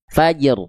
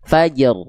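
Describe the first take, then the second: Both takes have the same delivery.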